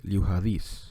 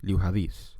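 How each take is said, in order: First: The D is pronounced as a softened sound. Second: The same.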